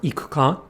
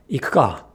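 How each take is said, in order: First: "ikuka" with the u fully voiced, i-ku-ka; wrong full-vowel ikuka. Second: "ikuka" with the u devoiced, ik-ka. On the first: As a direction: say "ikuka" with every vowel sounded. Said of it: "said quickly is not". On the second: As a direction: whisper away the u in "ikuka". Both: Shown as a demonstration.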